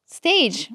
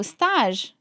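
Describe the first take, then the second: First: Said in the usual way. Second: Stage said the French way, "stahzh"; French-sounding "stage", like "stahzh"; French pronunciation. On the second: Retold or imitated. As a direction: say "stage" with an open ah and soft zh ending. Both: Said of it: "compared a lot to English".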